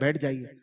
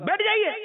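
First: It is said in a warm, gentle tone. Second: It is said in a sharp, harsh tone. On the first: The listener feels kindly invited to sit. The speaker calls it right. "محبت سے کہتے ہیں بیٹھ جائیے، کتنا اچھا انداز ہے" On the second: The listener feels offended and may start a quarrel. The speaker calls it wrong. "لہجہ جو ہے وہ جھگڑا کروا دے گا"

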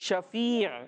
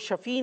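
First: The word ends with a clear final throat sound. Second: The word ends without the final throat sound. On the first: The speaker calls it right. "بلکہ شفیع. عین بھی اس کے اندر بولنے" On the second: The speaker calls it wrong. "تو وہ شفیع نہیں"

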